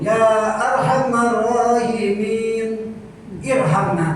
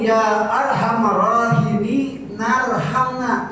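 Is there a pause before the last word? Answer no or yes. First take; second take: yes; no. First: There is a pause before the last word. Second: The words join with no pause before the last. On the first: "Kalau mau irhamna Bapak berhenti dulu" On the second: "Maka kalau mau nyambung"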